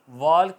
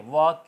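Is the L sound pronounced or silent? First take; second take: pronounced; silent. First: The L is pronounced. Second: The L is silent. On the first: The speaker calls it wrong. "वॉल्क नहीं होगा" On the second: The speaker calls it right. "आवाज़ आएगी डब्ल्यू ए के, वॉक की"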